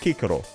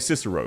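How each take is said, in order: First: Each C is said as a hard K sound. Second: The first C is said as a soft S sound. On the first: This is how the ancient language said it. "the C is supposed to be a really hard K there" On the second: This is the usual English way of saying it. "we say Cicero because it just uh, fits our language more"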